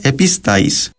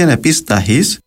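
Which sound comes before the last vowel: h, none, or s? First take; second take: none; h. First: No consonant comes before the last vowel. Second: An h sound comes before the last vowel. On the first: "ύστερα εν το προφέραν καθόλου" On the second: "αντικαταστούσαν το αρχικά με ένα δασύμφθογκο «χα»"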